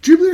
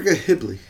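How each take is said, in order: First: "Ghibli" with a soft J, as in Jibli; soft-J pronunciation. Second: "Ghibli" with a hard G, as in give; hard-G pronunciation. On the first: Co-host asking which way to say it, "Ghibli" with soft J. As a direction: say "Ghibli" starting with a J sound. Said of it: "Apparently it's a soft J". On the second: Co-host asking which way to say it, "Ghibli" with hard G. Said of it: "I used to say Ghibli". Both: Shown as a demonstration.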